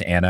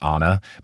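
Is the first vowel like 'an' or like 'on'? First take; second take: an; on. First: The first vowel sounds like 'an'. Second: The first vowel sounds like 'on'. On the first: The speaker calls it right. "if it's A-N-N-A, it is Anna" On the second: The speaker calls it wrong. "and not Anna"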